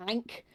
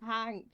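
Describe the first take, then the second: First: Ank said with no H sound, vowel straight in; dropped H. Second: Hank with a clear breathy H at the start; careful H. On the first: Real, not acted. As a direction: drop the H so Hank comes out as Ank. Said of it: "Fucking, fucking British accent". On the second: Shown as a demonstration. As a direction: sound the H in Hank deliberately. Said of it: "His name is Hank".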